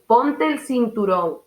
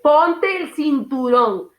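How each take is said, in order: First: The words are clearly articulated at a natural pace. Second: The words are over-articulated in an exaggerated way. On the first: The speaker calls it right. "vocalizando bien" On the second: The speaker calls it wrong. "eso lo que provoca es malestar en la otra persona"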